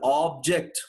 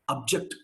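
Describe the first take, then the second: First: The first vowel is said long. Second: The first vowel is said short. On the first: It is used as a noun. "When you take it as a noun, that guy takes the long vowel" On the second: It is used as a verb. "when I treat this fellow as a verb"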